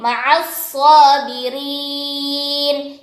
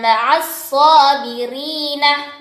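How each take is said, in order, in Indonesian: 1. Kata terakhir diakhiri dengan konsonan n. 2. Kata terakhir diakhiri dengan vokal pendek. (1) "berubah menjadi" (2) "Yang tadinya"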